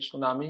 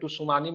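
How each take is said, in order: First: The word starts directly with an s sound. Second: The word starts with a t sound before s. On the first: The speaker calls it right. "ये सुनामी ही होता है" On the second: The speaker calls it wrong. "टुसुनामी मत पढ़े इसको"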